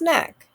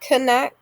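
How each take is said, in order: First: The word starts with an N sound. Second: The word starts with a K sound. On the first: The speaker calls it right. "It's just knack. Silent K" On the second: The speaker calls it wrong. "It's not knack"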